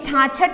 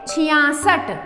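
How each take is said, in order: First: It is said as two syllables, chhaa-chhath. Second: It is said as chhiyaa-sath, with an s sound. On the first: The speaker calls it wrong. "ये छाछठ नहीं होता है" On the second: The speaker calls it right. "ये होता है छियासठ"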